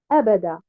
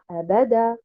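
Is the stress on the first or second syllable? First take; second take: first; second. First: The stress is on the first syllable. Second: The stress is on the second syllable. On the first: The word means eternally. The speaker calls it right. "placer un nabr sur harakat al-hamza et de dire abada" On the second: It asks whether it appeared. The speaker calls it wrong. "et non pas abada. C'est faux"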